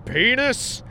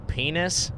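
First: Pitched sharply up, rising; mock escalation. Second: Soft, questioning rise; tentative reply. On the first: Principal tops the student's answer, mock escalation. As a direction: raise it to top the last one. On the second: Retold or imitated. Student answers the principal's game, tentative reply. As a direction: imitate an unsure, hesitant answer.

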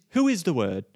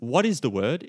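First: WHO pitched high, then falling to "Word"; stress on WHO. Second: "What is the Word?" lifting at the end; question with "What". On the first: Preacher correcting the question to a person, stress on "Who". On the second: Preacher setting aside the wrong question, "What is the Word?" rising. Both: Shown as a demonstration.

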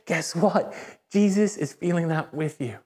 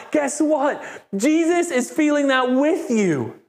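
First: Gentle empathy. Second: High, elated proclamation; joyful excitement. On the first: Preacher telling a hurting listener Jesus feels it too, gently. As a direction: offer comfort to someone hurting, understated. Mirrors the hurt person's mood. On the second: Preacher telling a rejoicing listener Jesus feels it too, elated. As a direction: share the joy with a much higher voice. Mirrors the overjoyed person's mood. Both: Acted.

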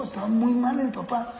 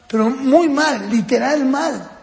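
First: Said in the usual way. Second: "muy mal" slow and drawn out, weighted; emphatic stress. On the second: Real, not acted. Speaker stresses how bad the father was, "muy mal" slow and emphatic. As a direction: lean hard and slowly on "muy mal", then "literal mal".

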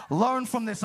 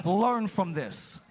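First: "Learn" pressed a little harder, at normal pace; firmer repeat. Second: Slow, deliberate teaching. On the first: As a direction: say it again with a touch more push. Repeated take, stronger. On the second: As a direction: lay it down slowly like a patient teacher. Jesus teaching disciples, first take. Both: Acted.

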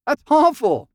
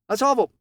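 First: Higher, louder exclaim "awful"; mock horror. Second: Said in the usual way. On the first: Real, not acted.

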